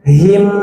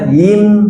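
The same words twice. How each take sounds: First: The syllable starts with a breathy h sound. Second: The syllable starts with a glottal stop. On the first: The speaker calls it right. "tapi him" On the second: The speaker calls it wrong. "jangan him"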